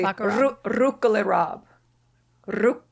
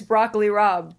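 First: The name is said in an Italian-style way. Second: The name is said in a plain American way. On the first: "the Italians say Rucola Rob" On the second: "It's Broccoli Rob"

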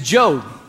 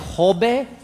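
First: The name is pronounced the English way. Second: The name is pronounced the Spanish way. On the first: The speaker calls it right. "My last name is Jobe" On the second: The speaker calls it wrong. "I've been called in Spanish"

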